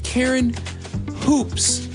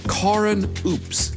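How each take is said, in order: First: The surname begins with an audible h sound. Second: The surname begins without any h sound. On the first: "It's spelled" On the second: "but he pronounces it"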